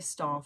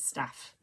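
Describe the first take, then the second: First: It is said in a southern English accent. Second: It is said in a non-southern accent, like Kerry.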